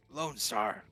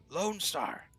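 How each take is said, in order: First: Loud cry of "Lone Star!" at the usual pitch; hoarse roar. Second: "Lone Star!" cried higher and loud; hoarse roar. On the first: Duncan shouts his badge name at the police, loud. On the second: Duncan shouts his badge name again, higher and louder. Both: A narrator's reading. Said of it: "His voice comes out in a hoarse roar".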